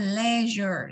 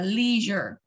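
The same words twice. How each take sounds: First: It is said with a British pronunciation. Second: It is said with an American pronunciation. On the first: "người Anh sẽ nói là leisure" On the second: "người Mỹ sẽ đọc là leisure"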